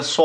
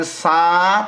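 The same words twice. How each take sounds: First: স said with a full heavy mouth; demonstrating the correct heavy letter; correct full-mouth sound. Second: সা said thin, like the light sin sound; demonstrating the mistaken light sound; wrong thin sound. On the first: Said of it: "আপনাকে বলতে হবে স". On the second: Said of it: "তাহলে সিনে চলে যাবে". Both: Shown as a demonstration.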